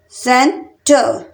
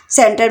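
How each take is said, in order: First: centre very slowly in two separate beats; long pause between सेन and टर; split into syllables. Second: Said in the usual way. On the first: Shown as a demonstration. Teacher counting out two syllables for learners, syllable by syllable. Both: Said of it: "centre में भी टू syllable".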